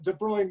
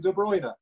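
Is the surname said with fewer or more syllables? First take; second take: fewer; more. First: The surname is said with one syllable fewer. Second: The surname is said with one syllable more. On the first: This is a regional way of saying the name. "just some regional pronunciation" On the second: This is how most of the country says the name. "the rest of Belgium was calling him"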